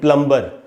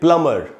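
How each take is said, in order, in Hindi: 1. m के बाद b की आवाज़ सुनाई देती है। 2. m के बाद कोई b की आवाज़ नहीं सुनाई देती। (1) "न कि" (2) "उसमें बी साइलेंट होता है ... बोलना चाहिए"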